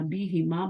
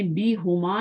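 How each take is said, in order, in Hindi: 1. h के बाद का स्वर i है। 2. h के बाद का स्वर u है। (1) "बोलना" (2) "नहीं बोलना"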